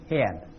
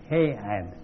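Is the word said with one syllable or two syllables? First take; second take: one syllable; two syllables. First: The word is said as one syllable. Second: The word is split into two syllables.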